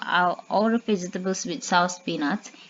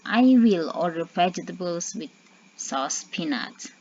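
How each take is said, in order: First: "I will" is shortened into one syllable. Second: "I will" is said as two full words. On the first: It sounds casual and friendly. "it's more sounds more casual, sounds more friendly" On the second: It sounds less casual. "The meaning is same"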